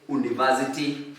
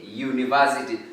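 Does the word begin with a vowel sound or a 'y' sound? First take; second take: vowel sound; y sound. First: The word begins with a plain vowel sound. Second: The word begins with a 'y' sound. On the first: The speaker calls it wrong. "We don't say university" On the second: The speaker calls it right. "we say university. So there is that sound, sound of letter Y"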